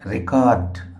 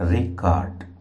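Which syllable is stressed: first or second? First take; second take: second; first. First: The stress is on the second syllable. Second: The stress is on the first syllable. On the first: To capture sound such as a voice. "రెండవ సిలబుల్ని మనం stress చేసి పలుకుతున్నాం" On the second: A written notebook of work. "ఇది noun"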